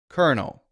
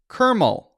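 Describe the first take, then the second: First: The word has an n sound before the ending. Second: The word has an m sound before the ending. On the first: The speaker calls it right. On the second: The speaker calls it wrong.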